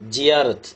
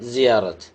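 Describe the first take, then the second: First: The first sound is said the Tamil way. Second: The first sound is an Arabic z. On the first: "இப்படி தான் தமிழில் சொல்ல முடியும்" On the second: "அரபியில் வழக்கம் போல்"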